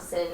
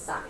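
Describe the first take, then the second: First: The word is said like 'sin'. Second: The word is said like 'sign'. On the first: The speaker calls it wrong. "It looks like it's spelled sin, but it's not sin" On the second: The speaker calls it right. "it's sine"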